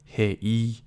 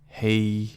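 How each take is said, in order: First: The final vowel is a separate extra syllable. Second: The final vowel glides into one syllable. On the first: The speaker calls it wrong. "You don't say hey e" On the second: The speaker calls it right. "you kind of curve that uh, e"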